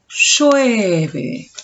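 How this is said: The voice sounds glad and relieved. It expresses joy and relief at the rain. "manifestando mi alegría y mi alivio porque llueve"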